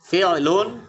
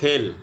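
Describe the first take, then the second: First: The word ends with an added 'un' syllable. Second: The word ends on a bare consonant. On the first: This is the form used while learning. "ফিউলুন শেখার সময়" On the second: This is the form used in ordinary speech. "বলার সময় বলতে হবে ফেল"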